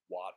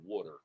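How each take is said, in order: First: It is said in an outside regional accent. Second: It is said in the local regional accent. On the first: This is how people elsewhere say it. "Some of you people speak funny and you say water" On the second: This is how people here say it. "like we say here"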